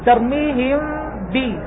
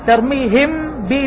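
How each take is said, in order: First: The m is softened with lips slightly apart. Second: The m is said clearly with lips fully closed. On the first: The speaker calls it right. "عليك أن تترك فجوة يسيرة حتى لا يظهر الحرف" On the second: The speaker calls it wrong. "لا تقول ترميهم بي، ترميهم بي، لأنك أظهرت الحرف هنا"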